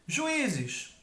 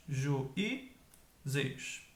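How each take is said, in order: First: Said in the usual way. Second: "juízes" slowly as ju... í... zes; teacher spacing out "juízes", pausing between syllables; split into syllables. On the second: Shown as a demonstration. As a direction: break "juízes" into three separate syllables.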